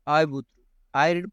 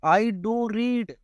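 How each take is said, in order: First: Said in the usual way. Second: I do read, with do stretched and pushed high; stress on do. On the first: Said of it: "वैसे use नहीं होता". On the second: Shown as a demonstration. Teacher demonstrating emphasis, slow I do read stressing do. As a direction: lean hard on do, slowly. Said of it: "अब मैं जोर दे के बोल रहा हूँ ना".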